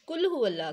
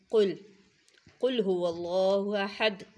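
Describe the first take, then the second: First: कुल said with a light, front kaf instead of the heavy qaf, a bit higher; कुल हुवल्लाह with the thin ordinary k sound. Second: कुल हुवल्लाहु अहद with the thick back-of-throat qaf; heavy qaf. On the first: Teacher showing students the wrong, thin kaf. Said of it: "कुल बारीक वाला काफ". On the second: Teacher demonstrating the correct heavy qaf to her students, slow and clear. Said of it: "मोटे वाले क़ाफ". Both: Shown as a demonstration.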